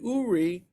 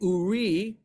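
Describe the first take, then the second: First: The stress is on the first syllable. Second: The stress is on the second syllable. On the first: "look at the trup mark under the first syllable" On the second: "the emphasis in the first part of the verse is on the second"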